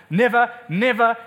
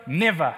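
First: Both nevers stressed and ringing out; emphatic never. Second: Never dropped much lower, falling, softer; quiet final never. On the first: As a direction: hammer each never home. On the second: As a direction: let the last never sink away low. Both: Shown as a demonstration. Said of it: "You'll never meet it".

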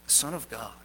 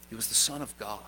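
First: Soft, low reverent repeat; hushed solemn echo. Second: Soft, low reverent statement; hushed solemn declaration. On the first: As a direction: echo it even quieter in awe. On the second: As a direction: lower the voice in awe. Climactic solemn line. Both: Real, not acted.

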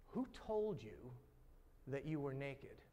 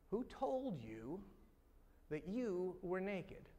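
First: Slow, leaning on "who" in "Who told you"; stress on WHO. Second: Slow, lifting "told" in "Who told you"; stress on TOLD. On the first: God asking the man, stress on WHO slowly. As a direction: draw out "who" as the question's weight. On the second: God asking again, stress on TOLD slowly. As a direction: press "told", rising, unhurried. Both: Acted. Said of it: "Here's what God says".

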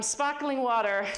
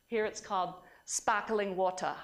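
First: Put-on slower, louder Australian accent, landing better this time; Australian accent, second try. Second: Put-on a shaky first try at an Australian accent; bad Australian accent. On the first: Lecturer retries the Australian accent for the audience. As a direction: lean into the Australian vowels of sparkling water. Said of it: "Oh, that was pretty good". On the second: Lecturer tries out the Australian local word in an Australian accent. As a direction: attempt the Australian accent and miss, landing near South African. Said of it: "My S-, Australian accent really stinks".

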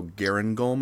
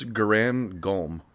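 First: "Garan Golm" run together in one fluid motion. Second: "Garan Golm" very slow, as two separate parts; name drawn apart. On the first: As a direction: say "Garan Golm" quickly as a single joined name. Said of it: "in one fluid motion". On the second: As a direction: stretch out "Garan Golm", splitting the two words. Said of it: "pronounce it in one fluid motion". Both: Shown as a demonstration.

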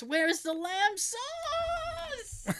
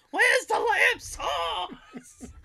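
First: Famous mock yell. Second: High, long-drawn yell breaking into laughter; imitated yelling. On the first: Host quotes Gordon Ramsay's famous line, high mock yell. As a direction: wail it high, stretching the last word. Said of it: "the very famous". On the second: Host imitates chef yelling at kitchen contestants, mock yell. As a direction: holler it high and stretch every word. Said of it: "yelling at Hell's Kitchen contestants, going".

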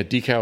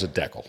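First: Said in the usual way. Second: DECAL said DECK-ul; short first syllable in DECAL, rhyming with heckle; Canadian pronunciation. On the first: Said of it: "it's just decal pronounced differently". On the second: Shown as a demonstration. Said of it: "if you're in Canada, they call 'em decals".

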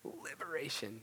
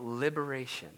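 First: Whispered, weighty repeat; hushed emphasis. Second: Said in the usual way. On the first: Real, not acted. Preacher stressing what obedience gives, hushed whisper. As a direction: drop to a whisper to let it land.

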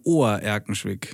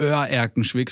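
First: „Ohr-Erkenschwick“ mit langem o statt ö; langes o. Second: „Oer-Erkenschwick“ mit ö am Anfang; falsches ö. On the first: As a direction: sprich den Anfang von „Ohr-Erkenschwick“ wie Ohr. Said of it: "Dehnungs-E". (langes o in „Ohr-Erkenschwick“) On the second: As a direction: sag „Oer-Erkenschwick“ wie „Ör-Erkenschwick“. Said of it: "Das heißt nicht". (ö statt o in „Oer-Erkenschwick“) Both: Shown as a demonstration.

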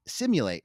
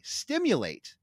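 First: Simulate said as sim-yoo-late, no t; the slip simulate, without the t; mispronounced simulate. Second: Stimulate said with a clear st at the start; corrected pronunciation. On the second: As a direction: fix it to stimulate, st-im-yoo-late. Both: Shown as a demonstration. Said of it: "or sorry".

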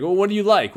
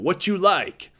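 First: Said in the usual way. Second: High Texas coach catchphrase; light Texas drawl impression. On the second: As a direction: echo the coach's Texas accent, pitched up. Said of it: "He had that Texas drawl".

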